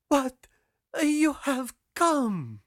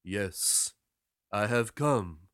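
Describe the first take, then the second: First: High, loud, drawn-out disbelief; astonished girl. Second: Low, matter-of-fact sailor; sailor's reply. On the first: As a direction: stretch it out high in amazement. Girl astonished at sailor's return. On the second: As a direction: answer her calmly in a lower voice. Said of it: "said the sailor". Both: A narrator's reading.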